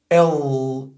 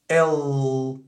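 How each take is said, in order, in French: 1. Le L est à l'américaine. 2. Le L est à l'américaine.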